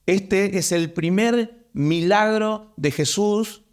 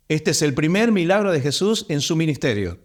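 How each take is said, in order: First: Slow, deliberate, every word weighed; emphatic slow statement of the first miracle; slow emphasis. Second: Said in the usual way. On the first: Shown as a demonstration. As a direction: lay it down slowly so they take note. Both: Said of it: "Atención ahí".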